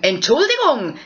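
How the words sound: It sounds like a reproach to someone.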